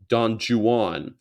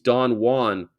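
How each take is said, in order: First: Juan is said with an English-style pronunciation. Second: Juan is said with a Spanish-style pronunciation. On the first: This is how the poet himself said the name. "English. Don Juan" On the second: This is how most people say the name. "people think he's Don Juan"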